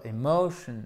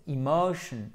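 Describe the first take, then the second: First: "emotion" said wrongly with E at the start; mauvaise prononciation. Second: "emotion" with short I at the start; bonne prononciation. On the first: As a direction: open "emotion" on an E, not a short I. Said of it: "ça se prononce pas emotion". (« emotion » avec un é initial fautif) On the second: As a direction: begin "emotion" on a short I, stress MO. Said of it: "non, c'est emotion". (« emotion » avec un i court initial) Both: Shown as a demonstration.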